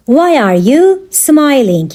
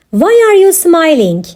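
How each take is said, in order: First: Slower, with a pause after "you"; measured, separated words; slow teaching repeat. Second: Said in the usual way. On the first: Shown as a demonstration. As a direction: spell out the question for learners. Teacher repeats question slowly for learners.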